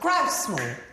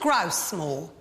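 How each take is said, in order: First: The stress falls on the word grouse. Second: The stress falls on the word moor. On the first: The speaker calls it right. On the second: The speaker calls it wrong. "You're putting all the stress on moor"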